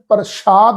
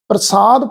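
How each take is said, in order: First: The middle consonant is an sh sound. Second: The middle consonant is a plain s sound. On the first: The speaker calls it wrong. "ਇਹਨੂੰ ਪ੍ਰਸ਼ਾਦ ਨਹੀਂ ਪੜਨਾ" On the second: The speaker calls it right. "ਪ੍ਰਸਾਦ ਪਾਠ ਹੈ"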